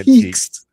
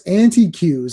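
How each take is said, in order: First: It is said as 'an-teek'. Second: It is said as 'anti' plus 'cue'. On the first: "Is she trying to say" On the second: "What is an anti Q?"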